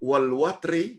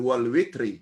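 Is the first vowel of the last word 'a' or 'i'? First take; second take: a; i. First: The last word's first vowel sounds like 'a'. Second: The last word's first vowel sounds like 'i'. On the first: This is one accepted reading of the verse. "huruf waw dibaca dengan baris atas" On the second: This is another accepted reading of the verse. "menurut bacaan Hafs dibaca dengan wal witri"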